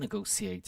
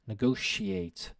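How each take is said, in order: First: The middle consonant is not a 'sh' sound. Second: The middle consonant is a 'sh' sound. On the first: "You could say negotiate as well. It kind of works okay" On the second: "Pronunciation shh"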